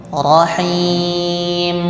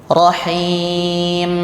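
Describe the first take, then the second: Both takes have the same delivery.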